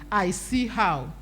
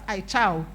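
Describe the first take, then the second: First: The name is said as three syllables. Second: The name is said as two syllables. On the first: The speaker calls it right. "but it's actually I See How" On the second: The speaker calls it wrong. "People pronounce it as I Chow"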